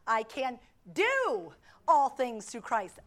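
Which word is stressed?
do. The stress falls on the word "do".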